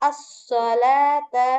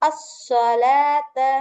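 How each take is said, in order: The two takes are said the same way.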